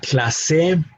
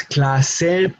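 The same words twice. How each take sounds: First: "clase" stressed on the last syllable, cla-SE; "clase" mis-stressed as clasé; wrong final stress. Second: "clase" drawn out slowly as CLA-se; "clase" stressed on the first syllable; correct penultimate stress. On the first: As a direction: push the stress onto se in "clase". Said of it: "not clase". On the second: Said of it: "should be in the second to last syllable". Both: Shown as a demonstration.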